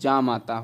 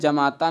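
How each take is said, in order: First: The first vowel is long, with no vowel dropped. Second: The first vowel is short, with a vowel dropped. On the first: The speaker calls it right. "बल्कि जामाता होता है" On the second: The speaker calls it wrong. "जमाता नहीं"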